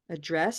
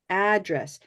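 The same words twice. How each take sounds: First: The stress is on the second syllable. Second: The stress is on the first syllable. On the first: "It can be address with stress here" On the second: "this is really different. It could be address"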